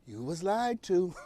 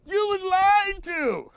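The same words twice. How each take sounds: First: Slow and quieter, each word spelled out; said again slowly. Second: High, slow, through real laughter; laughing. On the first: Shown as a demonstration. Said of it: "I'll just say it again". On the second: Real, not acted. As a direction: crack up while saying it slowly. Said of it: "I don't know why that's so funny to me".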